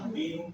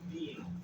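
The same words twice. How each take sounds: First: The first vowel is short. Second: The first vowel is lengthened.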